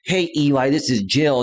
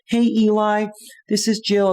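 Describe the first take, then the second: First: The voice sounds firm and masculine. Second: The voice sounds soft and sweet. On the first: The speaker calls it wrong. "I hear that masculine voice" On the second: The speaker calls it right. "I look for that sweet tone of voice"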